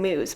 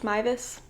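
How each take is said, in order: First: The surname is said as one syllable, 'moose'. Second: The surname is said with two syllables, 'my-ves'. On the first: The speaker calls it wrong. "I always want to say Moose, but I know that's not it" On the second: The speaker calls it right. "I believe is how it's pr- pronounced"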